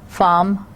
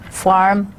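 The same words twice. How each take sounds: First: British pronunciation. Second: American pronunciation. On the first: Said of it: "in British English we would say farm". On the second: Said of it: "farm is in the American English". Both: Shown as a demonstration.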